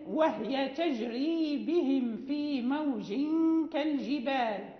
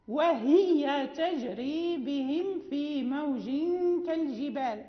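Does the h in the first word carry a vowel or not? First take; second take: no vowel; vowel. First: The h in the first word is vowelless. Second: The h in the first word is voweled.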